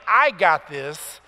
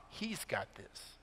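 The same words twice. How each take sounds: First: Slow, louder "I got this." with weight on "I"; self-reliant boast. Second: Slow, much softer "He's got this." with weight on "He's"; trusting reply. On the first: Preacher mocking self-reliance, slow stress on "I". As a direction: lean hard on "I" in "I got this." like a proud boast. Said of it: "Faith is not saying". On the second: Preacher contrasting trust in God, soft stress on "He's". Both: Shown as a demonstration.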